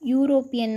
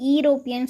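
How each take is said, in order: First: The word begins with a consonant 'yoo' sound. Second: The word begins with a plain 'ee' vowel. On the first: The speaker calls it right. "யூ யூரோப்பியன் தான் சொல்லுவோம்" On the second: The speaker calls it wrong. "ஈரோப்பியன் சொல்ல மாட்டோம்"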